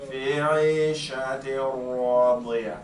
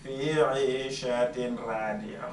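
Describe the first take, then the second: First: The n sound merges into the r without nasalization. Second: The n sound is kept before the r. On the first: The speaker calls it right. "ra is one of the letters of al-idgham بغير غنى" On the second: The speaker calls it wrong. "So I don't say"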